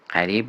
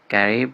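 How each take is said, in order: First: The name starts with a throaty q sound. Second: The name starts with a hard g sound. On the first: "ما ق تو انگلیسی نداریم" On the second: "گ اینجا میخوانیم"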